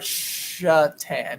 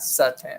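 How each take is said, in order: First: The name begins with a 'sh' sound. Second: The name begins with an 's' sound. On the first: The speaker calls it right. "Or Shatan" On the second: The speaker calls it wrong. "not Satan"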